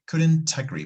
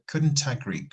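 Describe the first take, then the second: First: The T in couldn't is strongly pronounced. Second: The T in couldn't is strongly pronounced.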